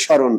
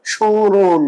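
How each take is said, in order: First: স্মরণ said plainly as shaw-ron with no nasal; East Bengal pronunciation. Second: স্মরণ said with a nasal glide, like shawng-ro; nasal pronunciation. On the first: Teacher to class, showing the East Bengal reading, স্মরণ as shaw-ron. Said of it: "পূর্ববঙ্গ উচ্চারণে normal হবে". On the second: Teacher to class, showing the nasal reading, স্মরণ as shawng-ro. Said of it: "চন্দ্রবিন্দু ম ফলাটা যখন উচ্চারণ হয় নাসিক হয়". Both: Shown as a demonstration.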